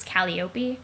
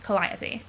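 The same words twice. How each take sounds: First: Calliope said as KAL-ee-oh-pee, four even syllables; troll name pronunciation. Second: Calliope said as kuh-LIE-uh-pee, stress on LIE; Greek muse pronunciation. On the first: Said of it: "my pronunciation of her name". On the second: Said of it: "Greek muse ... is pronounced". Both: Shown as a demonstration.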